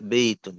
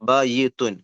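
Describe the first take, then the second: First: The y glides softly into the next sound. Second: The y is doubled with an extra vowel. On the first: The speaker calls it right. "ആ യാവിനെ സോഫ്റ്റ് ആക്കി" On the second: The speaker calls it wrong. "ബയ്യിത്തു എന്ന് പറയില്ല"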